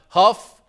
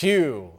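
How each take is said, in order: First: The name ends with an f sound. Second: The name ends on a vowel sound. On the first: The speaker calls it wrong. "It's not Huff" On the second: The speaker calls it right. "It's it's Hugh"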